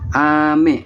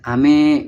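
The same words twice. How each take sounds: First: The second syllable is lower than the first. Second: The second syllable is higher than the first. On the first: It means rain. "ame yaitu uh, untuk hujan" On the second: It means candy. "me-nya itu lebih ke tinggi"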